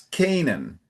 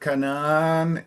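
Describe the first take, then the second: First: The stress is on the first syllable. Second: The stress is on the second syllable. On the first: The speaker calls it right. "it's Canaan ... the emphasis is the beginning" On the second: The speaker calls it wrong. "instead of Canaan"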